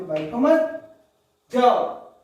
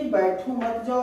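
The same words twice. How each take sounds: First: बैठो मत rising, pause, जाओ punched louder; pause before जाओ. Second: Slow बैठो, then मत जाओ as one phrase; meaning stay put. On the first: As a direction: join बैठो मत, then hit जाओ hard. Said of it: "यहाँ पे जाने की बात कर रहा है". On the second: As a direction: set बैठो apart and join मत to जाओ. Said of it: "यानी कि रुकने की बात कर रहा है". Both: Shown as a demonstration.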